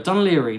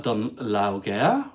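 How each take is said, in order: First: "Dunleary" ending like "leery"; "Dunleary" with a smooth "leary" ending; local pronunciation. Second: "Dunlawgare" sounded out as written, with hard g; "Dunlawgare" read literally, as law-gare; mistaken spelling pronunciation. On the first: Shown as a demonstration. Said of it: "not easy to say". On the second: Retold or imitated. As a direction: slowly puzzle out "Dunlawgare", ending like "gair". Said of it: "when I saw the word written".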